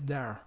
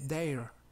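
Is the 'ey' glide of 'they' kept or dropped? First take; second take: dropped; kept. First: The vowel drops the 'ey' glide of they. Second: The vowel keeps the 'ey' glide of they. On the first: The speaker calls it right. "la I de they desaparece" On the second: The speaker calls it wrong. "No se dice there"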